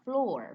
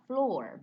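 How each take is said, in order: First: It is said with one syllable, like floor. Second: The same.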